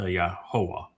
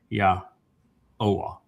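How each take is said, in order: First: An h sound is heard in the middle. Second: No h sound is heard in the middle. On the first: The speaker calls it wrong. "not uh" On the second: The speaker calls it right. "so it's ya oa"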